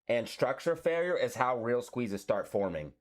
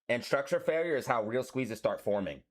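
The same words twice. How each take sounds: First: It is said at a slower pace. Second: It is said at a fast pace.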